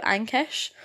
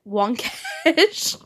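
First: Said in the usual way. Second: "Wonkesh" said with a W sound at the start; garbled name "Wonkesh" shouted; mispronounced Ankesh. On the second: Shown as a demonstration. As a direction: blurt "Wonkesh" louder and higher. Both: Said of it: "but instead said".

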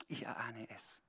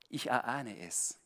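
First: Whispered, voiceless and hushed; hushed confiding whisper. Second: Said in the usual way. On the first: Real, not acted. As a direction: drop to a secret whisper for Ich erahne es. Repeats line as a whisper.

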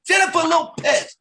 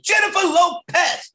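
First: Much higher, slow shouted copy; student copying a high shout. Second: Much higher, slow shouted name. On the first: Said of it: "And I go". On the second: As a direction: coach demonstrating a high shouted name. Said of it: "You gotta say [name]". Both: Shown as a demonstration.

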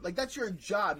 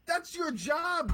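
First: Said in the usual way. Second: THAT'S drawn out slow and high; emphatic stress. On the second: Real, not acted. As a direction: lean hard on "That's your job", slowly. Stressing the coach's duty.

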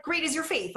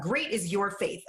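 First: Higher-pitched recital of the line; common reading. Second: Said in the usual way. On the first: Shown as a demonstration. Speaker showing how the morning prayer usually sounds, high-pitched. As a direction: lift the whole line high, as commonly understood. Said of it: "like, it sounds like".

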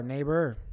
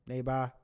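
First: Neighbor ending in a hard R. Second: Neighbor ending in a soft ah, no R. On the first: Host shows the hard version of the word, ending on a hard R. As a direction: say neighbor hitting a hard R at the end. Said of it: "And you got the hard R". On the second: Host shows the soft version of the word, ending on a soft ah. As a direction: say neighbor dropping the final R, ending on ah. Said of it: "You got the soft ah". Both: Shown as a demonstration.

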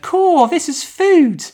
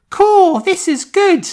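First: Put-on high, slow and loud boyish British voice, stressing food; squeaky kid, leaning on "food"; misheard Luke line. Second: Put-on high, slow and loud boyish British voice; squeaky little English boy; high Luke voice. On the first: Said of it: "But I heard". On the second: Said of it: "the weird British accents threw me because Luke goes".

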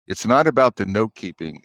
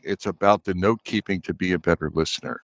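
First: Not pressed, the rest falling away; stress on not. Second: About pressed, softer overall; stress on about. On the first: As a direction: lean on "not" in "It's not about the note-keeping". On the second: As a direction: lean on "about" in "It's about the note-keeping". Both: Shown as a demonstration.

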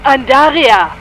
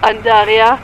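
First: Louder, higher, falling scream of her name; desperate shout. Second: Loud, rising cry of her name; desperate call. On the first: (verzweifelter Schrei) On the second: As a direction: shout for her into the void. (verzweifelter Ruf) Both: Acted. Ruft verzweifelt nach ihr.

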